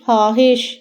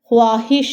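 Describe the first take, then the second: First: No w sound follows the kh. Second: A w sound follows the kh. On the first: The speaker calls it right. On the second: The speaker calls it wrong.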